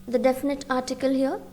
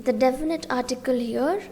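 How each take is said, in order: No difference in how they are said.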